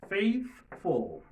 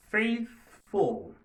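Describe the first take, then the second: First: Faithful again, the th unvoiced; model word repeated. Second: Faithful said loud and high, the th unvoiced; model word. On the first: Teacher repeats Faithful for students to try. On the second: Teacher says Faithful for students to try. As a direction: drill Faithful for the class. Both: Shown as a demonstration. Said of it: "On essaie de prononcer mot sa".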